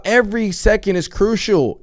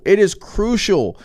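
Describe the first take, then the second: First: Said in the usual way. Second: "is" stressed, slow and firm. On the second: Shown as a demonstration. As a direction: lean on "is" slowly.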